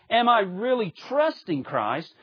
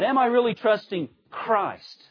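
First: The emphasis falls on the word really. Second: The emphasis falls on the word Christ. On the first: It asks how strong the trust is. The speaker calls it wrong. "It's not so much" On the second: It asks who the trust is placed in. The speaker calls it right.

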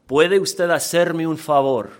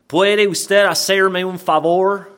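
First: It is said with native Spanish sounds. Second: It is said with non-Spanish letter sounds. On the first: The speaker calls it right. "here's how it's supposed to be pronounced" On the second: The speaker calls it wrong. "when you don't pronounce the letters how they're supposed to be in that language"

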